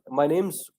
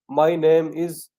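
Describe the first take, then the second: First: The words 'name is' are linked into one. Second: The words 'name is' are said in full. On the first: The speaker calls it right. "how we have to connect words, how we have to drop the sounds" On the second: The speaker calls it wrong. "No, you should not speak like this"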